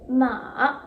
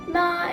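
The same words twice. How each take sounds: First: The pitch dips down and then rises again. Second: The pitch stays high and level throughout. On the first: "with the falling tone and the rising tone mixed together" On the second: "Ma is a standard line, meaning the tone should stay the same"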